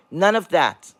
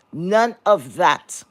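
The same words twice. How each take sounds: First: Said in the usual way. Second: None of that, drawn out slowly with NONE lifted at the end; slow emphatic. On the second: Shown as a demonstration. Telling viewers the critics stayed silent, slow and pointed. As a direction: stretch None of that slowly, let it hang.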